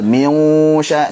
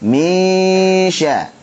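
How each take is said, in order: First: The nasal sound is heavy and thick. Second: The nasal sound is light and thin. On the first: The speaker calls it wrong. "jangan sampai tebal. Misya, salah" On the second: The speaker calls it right. "gunnahnya ikut tipis karena shin tipis"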